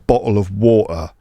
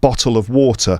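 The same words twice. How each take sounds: First: The T sounds are replaced by glottal stops. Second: The T sounds are pronounced clearly. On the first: "those classic examples" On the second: "not bottle of water"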